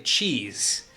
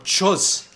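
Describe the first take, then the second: First: The word has its usual long ee vowel. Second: The word has a swapped, different vowel sound. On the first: "try taking a word, like say cheese" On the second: "replace it with a different vowel sound"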